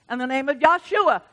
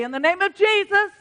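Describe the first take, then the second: First: Said in the usual way. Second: Jesus said high and louder; stress on Jesus. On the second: Shown as a demonstration. Preacher correcting the congregation, Jesus stressed high and loud. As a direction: lift and hit the word Jesus.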